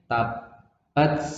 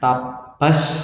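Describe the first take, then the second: First: The final t has a slight hiss. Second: The final t becomes a strong s. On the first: The speaker calls it right. "Jadi ada S-nya, ada S-nya" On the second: The speaker calls it wrong. "Tapi nggak boleh dibaca S banyak"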